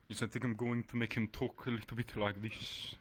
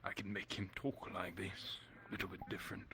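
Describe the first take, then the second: First: Deeper voice. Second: Softer, lightly posh character voice; posh but quiet. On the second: Player offers a quiet posh voice for the villain. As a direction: hush it and make it a bit posh. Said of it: "kind of more posh but quiet". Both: Shown as a demonstration.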